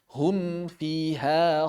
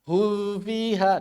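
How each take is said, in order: First: The m sound is clearly pronounced before f. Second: The m sound is nearly skipped before f. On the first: The speaker calls it right. "Harus em dulu" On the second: The speaker calls it wrong. "banyak yang langsung ke fa"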